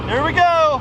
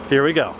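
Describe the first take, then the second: First: High, eager "here we go"; raised-pitch, hyped-up announcement; excited call-out. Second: Said in the usual way. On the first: Real, not acted. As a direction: call it out high before the shot. Calls it out before firing.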